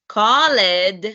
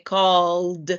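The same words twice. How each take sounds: First: The ending is said as an extra syllable. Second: The ending is said as just a d sound. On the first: The speaker calls it wrong. "instead of called, that's not correct" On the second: The speaker calls it right. "you need to omit the E and then only pronounce the D"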